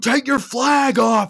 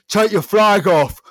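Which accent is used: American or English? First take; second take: American; English. First: It is spoken in an American accent. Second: It is spoken in an English accent. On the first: The speaker calls it right. "can I do it in American?" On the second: The speaker calls it wrong. "they obviously wouldn't have said it like that because they're American, not English"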